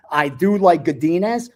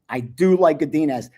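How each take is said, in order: First: "like" lifted with a rising tune; "I do LIKE Godinez" with weight on "like"; stress on like. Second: "do" punched, falling tune at the end; "I DO like Godinez" with weight on "do"; stress on do. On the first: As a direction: lean on "like" and let it rise. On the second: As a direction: hit "do" firmly and fall. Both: Shown as a demonstration.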